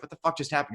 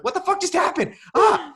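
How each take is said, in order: First: Said in the usual way. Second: Very high, loud freak-out ending in a yelp; mock panicked shriek. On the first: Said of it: "Robert Pattinson's like". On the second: Viewer reacting to the mermaid scene, hammed-up panicked shriek. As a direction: scream it in exaggerated alarm. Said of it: "You're like".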